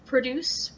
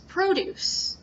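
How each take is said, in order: First: Produce said as the verb, stress on the second syllable, pro-DUCE; noun vs verb. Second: Produce said as the noun, stress on the first syllable, PRO-duce. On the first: Teacher contrasting the verb produce with the noun. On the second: Teacher contrasting the noun produce with the verb. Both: Shown as a demonstration. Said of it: "it's the same sounds, but".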